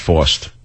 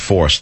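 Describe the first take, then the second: First: It is said in a Brooklyn-sounding accent. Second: It is said in a standard American accent. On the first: This is the slip he made earlier. The speaker calls it wrong. "not forced. I'm not really from Brooklyn" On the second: This is the intended word. The speaker calls it right. "I meant forced"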